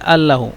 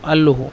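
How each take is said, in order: No difference in how they are said.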